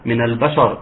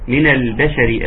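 First: The consonants sound heavy and thick. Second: The consonants sound light and thin. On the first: The speaker calls it wrong. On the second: The speaker calls it right.

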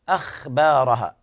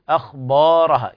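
First: Neither consonant is pronounced heavy. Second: The ba is pronounced heavy. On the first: "إما يخرقك الخاء" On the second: "أو يفخم الباء بعدها"

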